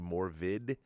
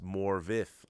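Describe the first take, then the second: First: The name ends with a d sound. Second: The name ends with a th sound. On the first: The speaker calls it wrong. "I'd say Morvid" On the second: The speaker calls it right. "it's pronounced Morvith"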